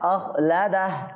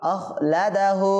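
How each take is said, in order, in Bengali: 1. শব্দটি স্বরধ্বনি ছাড়া কেটে গিয়ে শেষ হয়। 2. শব্দটি শেষে একটি স্বরধ্বনি উচ্চারিত হয়ে শেষ হয়।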